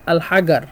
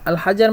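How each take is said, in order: First: It is said in Egyptian Arabic pronunciation. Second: It is said in standard Arabic pronunciation.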